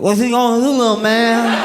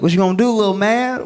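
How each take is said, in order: First: It imitates the drunk guy's taunting voice. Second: It is said in a plain, flat voice.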